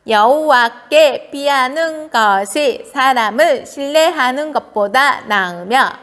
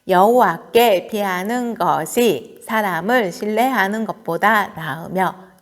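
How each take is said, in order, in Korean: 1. 귀여운 아기 목소리로 읽었어요. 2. 보통 어른 목소리로 읽었어요.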